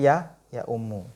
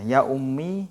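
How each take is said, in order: First: The final vowel of the word is u. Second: The final vowel of the word is i. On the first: "gedhammahkan mim" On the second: "yang sebelum ... maksur"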